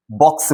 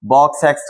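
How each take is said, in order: First: Said in the usual way. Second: बॉक्स एक्स, adding the letter name "ex"; wrong letter-name reading. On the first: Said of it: "बॉक्स बोलते हैं". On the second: Shown as a demonstration. Teacher shows learners what not to say, बॉक्स एक्स with added "ex". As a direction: say box with a stray "ex" after it, बॉक्स एक्स. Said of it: "थोड़ा ना बोलोगे इसे".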